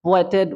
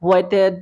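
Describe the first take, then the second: Both takes have the same delivery.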